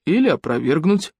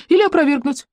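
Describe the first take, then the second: First: A different, lower man's voice, dry; husband's deep voice. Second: Higher, easy agreeing tone; agreeing young man. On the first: Elena's husband cuts in, dry low voice. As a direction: drop in a flat correction. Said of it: "подал голос еленский муж". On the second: Юнец agrees with the husband, light higher voice. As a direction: concede it lightly. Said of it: "согласился юнец". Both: A narrator's reading.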